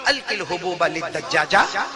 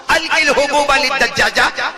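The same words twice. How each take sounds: First: Said in the usual way. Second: High, loud, slow command; drawn-out, raised-voice instruction; loud acted order. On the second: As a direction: act a mother ordering her son in Arabic. Mother's order repeated in full voice.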